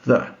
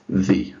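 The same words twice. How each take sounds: First: The article is said with its ordinary vowel. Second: The article is said with its changed vowel. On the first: "A pronúncia do artigo é essa" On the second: "se depois dele eu tiver uma palavra que inicia-se com uma vogal"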